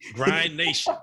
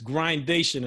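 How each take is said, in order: First: It is said as two separate words. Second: It is said as one blended word. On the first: The speaker calls it wrong. "I used to say it wrong" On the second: The speaker calls it right. "So it's Grindation"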